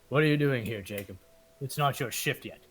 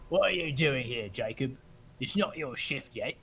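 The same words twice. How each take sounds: First: It is said in the speaker's ordinary voice. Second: It is said in a put-on character voice.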